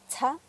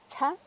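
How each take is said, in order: First: The ts sound has a strong puff of air. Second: The ts sound has a strong puff of air.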